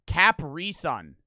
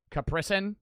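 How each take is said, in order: First: "Capri Sun" drawn out slowly as KAP-ree SUN; wrong pronunciation. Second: "Capri Sun" said kuh-PREE sun, first vowel reduced; correct pronunciation. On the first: Mocking the wrong way viewers said Capri Sun, slow KAP-ree. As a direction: say "Capri Sun" with a full open KAP at the start. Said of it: "That is not how you say it". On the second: Showing viewers the right way to say Capri Sun, reduced kuh-PREE. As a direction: say "Capri Sun" quick with a light kuh- start. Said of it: "Never say Capri Sun like that. That's how you say it". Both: Shown as a demonstration.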